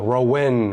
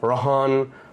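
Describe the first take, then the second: First: The middle of the name has no h sound. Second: The middle of the name has an h sound. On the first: "all my other unbrown mates would go" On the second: "all my brown friends would say Rohan ... however you want to say the H A"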